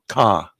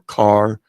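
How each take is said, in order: First: The final R sound is dropped. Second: The final R sound is pronounced. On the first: "they leave off the R at the end of certain words" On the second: "instead of saying bar or car or far"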